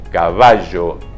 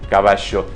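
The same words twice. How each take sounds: First: The last consonant is a voiced zh-like sound. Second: The last consonant is a voiceless sh sound. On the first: The speaker calls it right. "con sonido de la garganta" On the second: The speaker calls it wrong.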